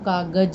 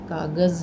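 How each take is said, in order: First: The word ends in a hard j sound. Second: The word ends in a buzzing z sound. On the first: The speaker calls it wrong. "अगर हम अपने नुक्ता नहीं लगाया तो वो कागज हो जाएगा" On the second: The speaker calls it right. "कागज़ नहीं होगा"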